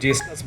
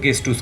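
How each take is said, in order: First: The word starts with a j sound. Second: The word starts with a hard g sound. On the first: This is how English readers often say it. The speaker calls it wrong. "अंग्रेजी में जो लोग पढ़ते हैं वो अक्सर उसको जेस्टस बोलते हैं" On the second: This is the correct German pronunciation. The speaker calls it right. "German सही प्रोनाउंस अगर करना चाहेंगे ... तो उसको गेस्टूस कहिए"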